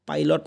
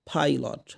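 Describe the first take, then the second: First: It starts with a plain unaspirated p sound. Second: It starts with a breathy p sound. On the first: The speaker calls it wrong. "পাইলট না" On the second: The speaker calls it right. "প ফর মাঝখানে ফ ফ"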